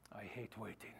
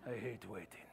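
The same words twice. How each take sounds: First: Put-on low, soft Spanish-accented Inigo Montoya line. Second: Put-on low, soft Spanish-accented Inigo Montoya line again. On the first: Pastor to congregation, Inigo Montoya accent. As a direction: growl it like a vengeful Spanish swordsman. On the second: Pastor repeating the joke, Inigo Montoya accent. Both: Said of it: "That was in my Indigo Montoya accent".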